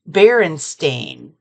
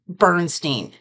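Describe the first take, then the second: First: The name ends with a 'stain' sound. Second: The name ends with a 'stine' sound. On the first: This is how the name is actually pronounced. The speaker calls it right. "It's Berenstain" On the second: This is the speaker's habitual way of saying it. The speaker calls it wrong. "now I pronounce this Bernstein"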